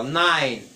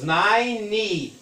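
First: "nine" in a single syllable, silent final E; short clipped "nine", one beat. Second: "nine" said as "naini", two syllables, T dropped; two syllable ninety. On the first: Teacher shows students "nine" is one syllable. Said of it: "é uma sílaba só". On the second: Teacher shows students ninety without the T. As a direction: stretch "nine" into "nai-ni". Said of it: "no noventa são duas sílabas". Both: Shown as a demonstration.

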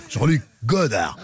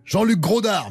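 First: Said in the usual way. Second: « Grodard » dit exprès avec un r en trop, plus aigu; nom déformé. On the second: Shown as a demonstration. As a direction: prononce « Grodard » comme une blague. (« Grodard » au lieu de Godard, en plaisantant) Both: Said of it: "Mais non, je déconne".

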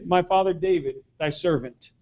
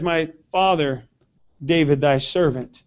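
First: Soft, humble, lowered voice; humble reverence. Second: Humble reverence. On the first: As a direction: say it as a humble servant. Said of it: "He referred to his dad as". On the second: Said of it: "He says". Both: Retold or imitated.

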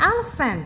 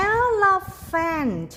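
First: Said in the usual way. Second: Elephant drawn out syllable by syllable, high start; teacher modelling "elephant", each syllable held long; model pronunciation. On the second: Shown as a demonstration. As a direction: say "elephant" slowly in separate, stretched syllables for children to copy. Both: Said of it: "ลองเช่นครูอ่านสิคะ".

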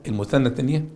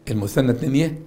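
The two takes are said the same way.

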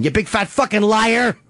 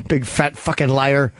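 First: Raised-pitch playful accusation; mock accusation. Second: Low, slow name-calling; teasing insult. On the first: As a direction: act out calling someone a liar, pitched up. Acted accusation, second take. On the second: Acted. Low first take of the insult.

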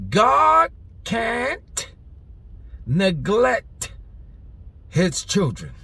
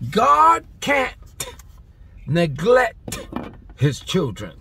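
First: Put-on God can't ... neglect ... his children, each word set apart with pauses; slow, spaced-out emphasis. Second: Shouted emphasis. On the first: Preacher drawing the point out for the crowd, slow and emphatic. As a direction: lean hard on God, then let each word land slowly. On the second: Preacher repeating the line louder for the congregation, shouting. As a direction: blast God can't, then fall away on his children. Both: Shown as a demonstration. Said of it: "You wanna know why I speak like that?".

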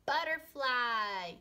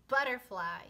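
First: "butterfly" drawn out, higher and louder; stressed slow butterfly. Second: Said in the usual way. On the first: Shown as a demonstration. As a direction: stretch "butterfly" slowly with a hard B. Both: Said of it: "B, b".

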